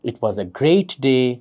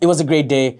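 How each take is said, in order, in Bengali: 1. এটি ধীরে ও শান্তভাবে বলা হয়েছে। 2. এটি দ্রুত বলা হয়েছে, মাঝে মাঝে দ্বিধাগ্রস্ত ফিলার শব্দ সহ।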